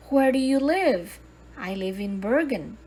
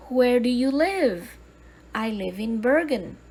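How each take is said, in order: Both takes have the same delivery.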